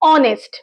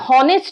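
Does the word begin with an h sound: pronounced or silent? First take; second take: silent; pronounced. First: The word begins with a vowel, h silent. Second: The word begins with a pronounced h sound. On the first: The speaker calls it right. "মানে এইচ এর উচ্চারণ silent আছে" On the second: The speaker calls it wrong. "এখানে আমরা হনেস্ট বলছি না"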